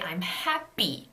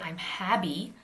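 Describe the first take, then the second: First: The middle P is held tense without air. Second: The middle consonant is voiced like a B. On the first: The speaker calls it right. "You say I'm happy" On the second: The speaker calls it wrong. "It's not a B, you don't say I'm happy"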